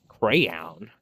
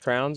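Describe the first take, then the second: First: The word is said like 'crayon'. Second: The word is said like 'crown'. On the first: The speaker calls it right. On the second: The speaker calls it wrong.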